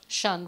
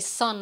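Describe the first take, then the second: First: The word begins with an sh sound. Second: The word begins with an s sound. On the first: "I would say shun" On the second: "if I wanted to say sun"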